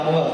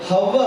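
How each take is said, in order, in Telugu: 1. ఈ పేరు నేరుగా అచ్చుతో మొదలవుతుంది. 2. ఈ పేరు h శబ్దంతో మొదలవుతుంది. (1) "అవ్వ కాదమ్మా" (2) "హ హవ్వ"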